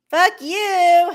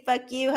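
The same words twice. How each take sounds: First: Playful shouted fuck you, higher and louder; mock insult. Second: Said in the usual way. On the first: Vlogger jokingly yelling at a chat friend, loud and playful. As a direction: tease a friend with a fake cuss.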